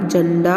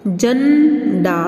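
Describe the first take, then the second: First: Said in the usual way. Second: झंडा with a long hummed "jhan", then "da"; very slow, nasal झंडा in two parts; syllable-split nasal demo. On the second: Shown as a demonstration. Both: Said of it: "हम नासिका द्वारा इसका उच्चारण".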